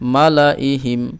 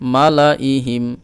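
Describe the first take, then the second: Both takes have the same delivery.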